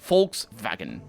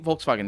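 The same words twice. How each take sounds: First: The word begins with an F sound. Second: The word begins with a V sound. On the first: The speaker calls it right. "it's an F sound at the beginning" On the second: The speaker calls it wrong. "I'm pronouncing it wrong"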